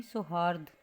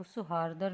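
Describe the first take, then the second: First: सौहार्द ending straight on "rd"; correct pronunciation. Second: सौहार्दर with an extra final "ar"; wrong pronunciation. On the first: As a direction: say सौहार्द with no final "ar". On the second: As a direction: say सौहार्दर ending in "-dar". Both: Shown as a demonstration. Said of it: "तो सौहार्दर नहीं".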